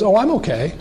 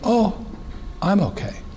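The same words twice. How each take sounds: First: It is said smoothly without a hesitant pause. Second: It is said with a hesitant pause after oh.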